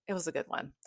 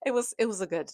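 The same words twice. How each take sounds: First: Soft whispered aside. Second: Said in the usual way. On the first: Real, not acted. To viewers, a whispered aside after the rating. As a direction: breathe it like a secret.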